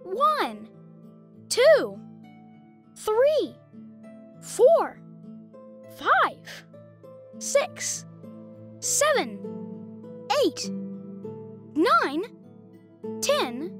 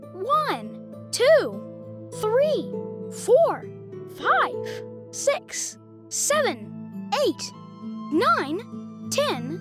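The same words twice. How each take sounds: First: The counting is at a slow pace. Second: The counting is at a fast pace.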